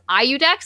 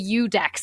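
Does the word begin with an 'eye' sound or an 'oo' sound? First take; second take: eye; oo. First: The word begins with an 'eye' sound. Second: The word begins with an 'oo' sound. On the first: The speaker calls it right. "In the first book, he says IUDEX" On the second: The speaker calls it wrong. "here he says the UDEX, and I hate it"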